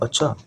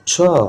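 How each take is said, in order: First: It is said in a plain, neutral way. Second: It is said in a surprised way. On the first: The speaker simply acknowledges something. "अगर मैं simply कहूं" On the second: The speaker is surprised by something. "Surprise होकर बोलूं"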